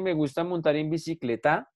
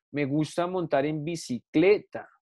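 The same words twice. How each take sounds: First: "bicicleta" with a rising stress on the final TA; misplaced final stress. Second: "bicicleta" slowed, with stress on CLE and falling TA. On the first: Teacher mocks up a wrong example, "bicicleta" stressed on TA. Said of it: "Yo no digo eso". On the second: Teacher gives the correct example, "bicicleta" stressed on CLE. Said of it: "Yo digo". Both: Shown as a demonstration.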